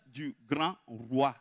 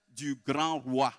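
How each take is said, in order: Both takes have the same delivery.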